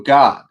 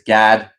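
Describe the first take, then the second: First: The vowel sounds like the one in father. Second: The vowel sounds like the one in cat. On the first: The speaker calls it wrong. "almost sounded like I said God" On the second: The speaker calls it right. "It's Gad, like G A D"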